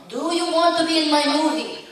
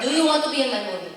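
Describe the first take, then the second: First: Put-on higher, louder Italian-accented director; mock Italian accent. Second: Quick, louder mock Italian accent; Italian accent imitation. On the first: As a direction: imitate the Italian director insisting. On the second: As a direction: ham up a director's Italian accent. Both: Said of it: "very thick Italian accent".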